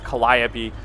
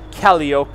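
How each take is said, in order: First: The word gets its usual, standard pronunciation. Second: The word gets a playful, nonstandard pronunciation. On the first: The speaker calls it right. "It's Calliope" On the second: The speaker calls it wrong. "as I like to affectionately refer to it. Yes, I know that's not how you pronounce that"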